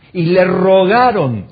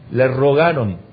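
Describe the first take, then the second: First: Rogaron stretched slow, higher and louder; slow, pleading emphasis on "rogaron"; emphatic. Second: Said in the usual way. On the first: Shown as a demonstration. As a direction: lean hard on "rogaron" as if begging.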